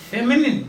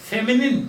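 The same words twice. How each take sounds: Both takes have the same delivery.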